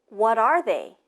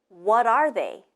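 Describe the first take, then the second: Both takes have the same delivery.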